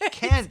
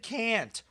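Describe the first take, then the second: First: The vowel sounds like the one in 'Kent'. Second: The vowel sounds like the one in 'can't'. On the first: The speaker calls it right. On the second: The speaker calls it wrong. "you said can't"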